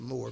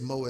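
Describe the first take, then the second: First: The word is said in a standard accent. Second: The word is said in a South Central LA accent.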